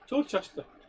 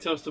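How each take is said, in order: First: It is said with three syllables. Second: It is said with two syllables. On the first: "I'm saying it wrong on purpose" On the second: "I do mean toaster"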